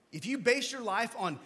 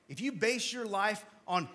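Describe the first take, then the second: No difference in how they are said.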